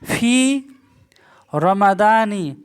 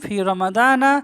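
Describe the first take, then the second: First: The last word ends with an 'i' vowel. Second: The last word ends with an 'a' vowel. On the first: The speaker calls it wrong. "Sorry ফি রমাদান, এখানে না হবে না" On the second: The speaker calls it right. "শেষ হরফে যাবার হবে"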